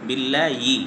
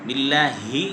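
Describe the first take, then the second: The two takes are said the same way.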